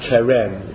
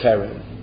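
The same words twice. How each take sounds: First: The stress is on the last syllable. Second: The stress is on the first syllable. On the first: The speaker calls it wrong. "It's not Karen" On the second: The speaker calls it right. "it's Karen"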